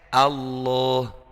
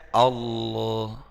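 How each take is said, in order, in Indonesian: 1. Vokal pertama tetap tipis dan jelas. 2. Vokal pertama dibuat tebal dan gelap. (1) "Harusnya kan Allah. Iya, A-nya tetap A" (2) "Kalau kita terlena misalnya bacanya Allah"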